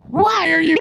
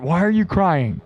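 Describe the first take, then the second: First: Mock crying. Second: Said in the usual way. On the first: Streamer teasing the crying poll option, mock wail.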